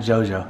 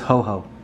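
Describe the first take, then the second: First: It begins with a J sound. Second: It begins with an H sound. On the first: The speaker calls it wrong. "Not Jojo" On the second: The speaker calls it right. "It's ho-ho"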